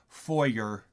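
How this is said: The word has an American pronunciation. The speaker calls it wrong. "not foyer, as you stupid Americans would say"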